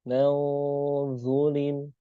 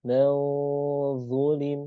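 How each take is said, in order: The two takes are said the same way.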